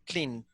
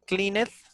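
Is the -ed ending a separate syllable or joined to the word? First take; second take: joined; separate. First: The ending joins the word with no extra syllable. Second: The ending is an extra separate syllable. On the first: The speaker calls it right. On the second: The speaker calls it wrong.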